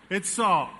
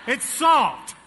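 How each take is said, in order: First: Said in the usual way. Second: "salt" punched higher and louder; stress on salt. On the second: Shown as a demonstration. Preacher revealing the container to the church, "salt" punched loud. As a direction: hit the word "salt" hard.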